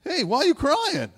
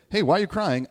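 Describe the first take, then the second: First: High, loud mocking question to a crying woman; mock clueless guy. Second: Louder, lightly mocking version of the line; mild mock clueless guy. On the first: Mocking a man who asks a crying woman why. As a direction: ham up the clueless guy asking "why are you crying". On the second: Preacher lightly mocks the question to a crying woman. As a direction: toss off "Hey" as a loud, lighter jab. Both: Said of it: "things to never say to a woman".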